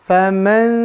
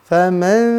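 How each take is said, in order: The two takes are said the same way.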